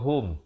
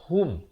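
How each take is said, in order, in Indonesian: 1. Vokalnya terdengar seperti 'o'. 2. Vokalnya terdengar seperti 'u' yang jelas. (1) "Ramai orang baca hum. H O M" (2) "Yang sebetulnya hum. Macam kita tulis H U M itu"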